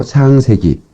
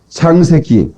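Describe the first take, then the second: First: Said in the usual way. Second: 창세기 said with hard, tense consonants; strong pronunciation. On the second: Real, not acted. Pastor announcing the verse to the congregation, hard-edged 창세기. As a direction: bite down on 창세기, each syllable crisp. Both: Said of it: "아, 발음이 좀 세죠?".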